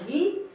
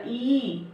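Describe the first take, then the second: First: ई as a short, quick vowel, pitch rising. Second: ई held long, rising then falling; long vowel. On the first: Teacher demonstrating the short matra on य, short ई. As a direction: keep ई brief, ending on an upturn. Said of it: "छोटी की मात्रा". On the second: Teacher demonstrating the long matra on य, drawn-out ई. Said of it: "बड़ी की मात्रा". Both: Shown as a demonstration.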